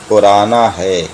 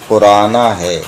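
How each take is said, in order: Both takes have the same delivery.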